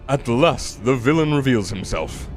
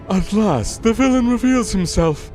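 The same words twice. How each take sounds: First: It is said in the character's usual voice. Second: It is said in a different put-on voice.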